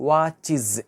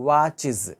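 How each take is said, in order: The two takes are said the same way.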